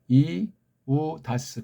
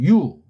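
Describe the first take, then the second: First: The first two vowels are pronounced as separate syllables. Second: The first two vowels are merged into one syllable. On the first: The speaker calls it right. "이우다스 그렇게 읽으면 돼요" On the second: The speaker calls it wrong. "연독을 한답시고 유 이렇게 하면 안 돼요"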